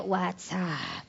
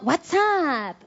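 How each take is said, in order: First: "WhatsApp" muy grave y bajito, sin melodía; sin entonación. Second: "WhatsApp" efusivo, alargado, con melodía que sube y cae; con entonación. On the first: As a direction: deja caer "WhatsApp" apagado, sin energía. ("WhatsApp" sin entonación, en tono bajo y débil) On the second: ("WhatsApp" con entonación muy marcada) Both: Shown as a demonstration. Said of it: "con entonación".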